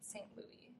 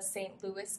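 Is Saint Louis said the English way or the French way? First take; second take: French; English. First: The name is said the French way. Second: The name is said the English way.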